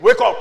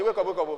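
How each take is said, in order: First: Much louder, short wake-up call; emphatic preacher's order; loud command. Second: Said in the usual way. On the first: Shown as a demonstration. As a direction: rouse them with one strong burst. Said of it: "I just say". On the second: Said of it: "I didn't say".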